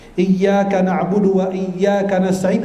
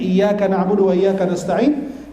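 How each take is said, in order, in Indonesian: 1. Bunyi y pada iyyaka dirangkap dan ditahan. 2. Bunyi y pada iyyaka tunggal dan pendek. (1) "iyyaka ditekankan" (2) "tidak pakai tajdid atau syaddah"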